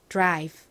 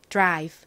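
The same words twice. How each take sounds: Both takes have the same delivery.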